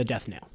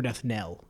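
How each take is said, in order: First: Host unsure of the word, saying "knell" like "nail"; "knell" with a long A, rhyming with "tale". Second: "knell" rhyming with "bell"; knell with short E. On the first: Host tries out a word, "knell" pronounced as nail. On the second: Host corrects himself unsurely, "knell" pronounced with short E. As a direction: offer "knell" with a short open E, as in "tell". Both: Shown as a demonstration. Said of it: "if it's a knell or nail".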